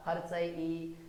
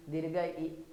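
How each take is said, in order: First: A quick, clipped ई; short i. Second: दीर्घ ई held long, two beats. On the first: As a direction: say हर्ष ई short, one beat. (ह्रस्व ई को छोटा बोलें) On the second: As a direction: stretch the ई out. (दीर्घ ई को लंबा खींचें) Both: Shown as a demonstration. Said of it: "ह्रस्व का मतलब होता है छोटा".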